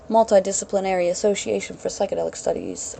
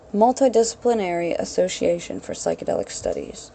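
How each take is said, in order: First: The phrase is said very quickly. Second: The phrase is said more slowly. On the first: "I've trained myself to say it like Jason Silva" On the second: "I'll say that slower"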